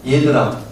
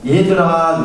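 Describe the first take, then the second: First: Said in the usual way. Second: Calling out. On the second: Retold or imitated. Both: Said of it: "이렇게 부릅니다".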